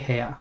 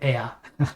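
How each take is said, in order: First: The word starts with an h sound. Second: The word starts with a vowel sound. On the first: The speaker calls it right. "We say hea" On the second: The speaker calls it wrong. "You wouldn't say ea. That sounds like air"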